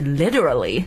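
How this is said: The word is said in an American accent. "然后美国人是literally"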